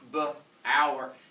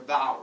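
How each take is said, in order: First: The vowel rhymes with flower. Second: The vowel does not rhyme with flower. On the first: The speaker calls it right. "like kind of rhymes with flower" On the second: The speaker calls it wrong. "instead of like bower"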